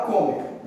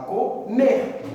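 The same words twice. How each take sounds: First: "comer" stressed on the first syllable, CO-mer; mis-stressed "comer", weight on the first syllable; wrong syllable stressed. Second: "comer" slowly split, landing on MER; drawn-out "comer", co-MER, stressed at the end; stress on last syllable. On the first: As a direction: hit the CO in "comer", let "mer" drop. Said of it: "Você não fala comer". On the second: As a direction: punch the final syllable of "comer". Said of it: "você fala comer". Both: Shown as a demonstration.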